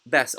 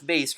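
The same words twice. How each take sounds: First: "bass" with the vowel of "bash"; "bass" as in the fish, short vowel; short-a pronunciation. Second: "bass" said like "base"; "bass" rhyming with "case"; long-a pronunciation. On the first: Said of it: "So this is ba". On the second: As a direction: say "bass" with the vowel of "face". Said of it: "people pronounce this as". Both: Shown as a demonstration.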